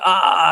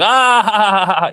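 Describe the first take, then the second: First: It is bawled as a cry of pain. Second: It is said as a laugh.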